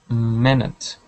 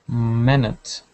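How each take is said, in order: No difference in how they are said.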